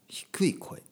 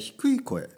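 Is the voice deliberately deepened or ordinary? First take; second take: deepened; ordinary. First: The voice is pitched deliberately low and deep. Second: The voice is at its ordinary everyday pitch. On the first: "低い声ですよ。こういう声です" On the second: "これ僕の普通の声ね"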